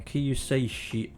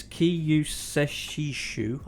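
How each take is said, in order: First: 'Kiyuseishi' read off the page at normal pace, as kee-yoo-say-shee; a quick, unsure first go at 'Kiyuseishi'; first try at a name. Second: 'Kiyuseshishu' said very slowly, syllable by syllable, as kee-yoo-seh-shee-shoo; careful retry of a name. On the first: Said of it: "show up how bad I am at pronunciation". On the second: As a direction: sound out 'Kiyuseshishu' one piece at a time. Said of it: "we're gonna try that again". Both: Shown as a demonstration.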